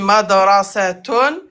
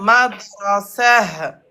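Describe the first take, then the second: First: The word ends with a full t-un ending. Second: The word ends in a breathy h, no t. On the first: "Soit on dit madrasatun" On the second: "soit madrasah"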